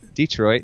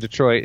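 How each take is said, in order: First: It is said in a Mississippi accent. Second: It is said in a standard accent.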